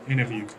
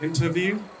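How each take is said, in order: First: The T after the N is silent. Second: The T after the N is pronounced. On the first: "the Americans say it" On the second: "the British people say it"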